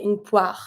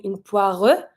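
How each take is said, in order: First: Poire ending clean on the R, no final E; right poire, stop at R. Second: Poire with an extra E sound at the end; wrong poire with final E. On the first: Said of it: "And you stop at the R". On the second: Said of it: "You're not gonna be saying". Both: Shown as a demonstration.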